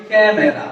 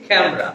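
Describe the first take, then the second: First: ক্যামেরা with three syllables, ka-me-ra; ক্যামেরা as kæ-me-ra, every vowel kept; common mispronunciation. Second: ক্যামেরা shortened to kæm-ra; ক্যামেরা in two syllables, middle vowel dropped; correct two-syllable form. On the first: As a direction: say ক্যামেরা with the middle vowel fully sounded. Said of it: "আসলে ক্যামেরা না". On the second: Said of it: "শব্দটা হচ্ছে কি?". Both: Shown as a demonstration.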